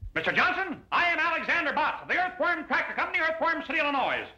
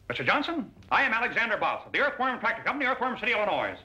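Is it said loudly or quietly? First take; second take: loudly; quietly. First: It is said very loudly, shouting. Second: It is said quietly, not shouting.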